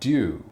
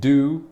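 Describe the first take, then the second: First: It begins with a sound between d and j. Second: It begins with a plain d sound. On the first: "somewhere in the middle" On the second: "like the word do, as in do something"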